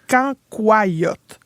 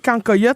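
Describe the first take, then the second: First: The word is said in the standard pronunciation. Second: The word is said in the speaker's everyday pronunciation. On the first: "il paraît qu'il faut le prononcer cancoyote" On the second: "moi, je dis cancoyote"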